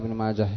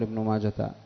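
First: The name ends with a silent-vowel h sound. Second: The name ends with a t sound. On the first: The speaker calls it right. "يوقف عليها كما يوقف على هاء السكت" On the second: The speaker calls it wrong. "قال بعضهم إنها تاء مربوطة"

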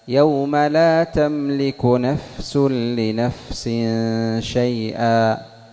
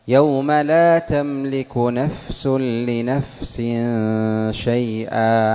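The two takes are said the same way.

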